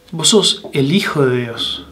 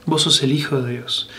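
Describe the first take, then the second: First: Said in the usual way. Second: Quiet, reverent repeat; softer echo. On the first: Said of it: "Peter's confession, said twice". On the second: Shown as a demonstration. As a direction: repeat it much softer, almost to yourself. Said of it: "repeated softly, second take".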